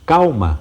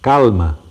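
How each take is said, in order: First: The L is said as a U-like glide. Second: The L is said as a clear L. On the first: This is the current pronunciation. "Dizemos calma" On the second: This is the older pronunciation. "e não mais calma"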